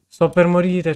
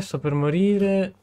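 First: Half-yelled hungry complaint; a playful loud wail of hunger; loud mock despair. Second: Slow, higher dying moan; a slow theatrical whimper; drawn-out mock whine. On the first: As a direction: cry out louder, hammed-up starving. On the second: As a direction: stretch morire out, hammed-up starving. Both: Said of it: "c'ho fame".

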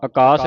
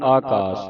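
First: ਆਕਾਸ with a short first vowel, "a-kaas"; wrong short opening. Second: ਆਕਾਸ with a long first "aa"; long opening vowel. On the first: Teacher shows congregation the reading to avoid, ਆਕਾਸ with short first vowel. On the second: Teacher corrects congregation's reading, ਆਕਾਸ with long first vowel. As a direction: hold the opening of ਆਕਾਸ as aa-kaas. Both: Shown as a demonstration. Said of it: "ਆਕਾਸ ਨਹੀਂ ਪੜ੍ਹਨਾ".

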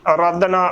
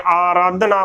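First: ਆਰਾਧਨਾ with the first vowel cut to a short "a"; common mispronunciation. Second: ਆਰਾਧਨਾ opening on a full long "aa"; correct pronunciation. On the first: Teacher showing the congregation's usual slip, mispronunciation. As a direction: say ਆਰਾਧਨਾ as "a-raadhna", short opening. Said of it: "ਗਲਤ ਉਚਾਰਨ ਹੋਵੇਗਾ". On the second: Teacher correcting the congregation's reading, careful pronunciation. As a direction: say ਆਰਾਧਨਾ as "aa-raadhna". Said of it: "ਬੋਲਣਾ ਹੈ". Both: Shown as a demonstration.

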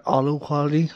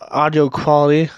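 First: "audio" slurred to AH-doh, losing its i; mispronunciation. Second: "audio" said clearly with its i, AW-dee-oh; correct pronunciation. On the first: Retold or imitated. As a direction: stumble "audio" into two syllables. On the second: Shown as a demonstration. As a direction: say "audio" in full, three syllables. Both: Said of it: "not audio quality".

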